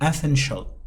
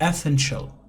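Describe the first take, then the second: First: The ending is said as one syllable, shul. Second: The same.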